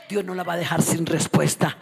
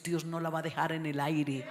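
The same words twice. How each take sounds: First: "Dios" hit loud at the start, whole line much louder; building shout. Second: Said in the usual way. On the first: Shown as a demonstration. Preacher driving the promise home to the women, shouting. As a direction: drive the repeat home with full force. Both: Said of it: "repeated louder".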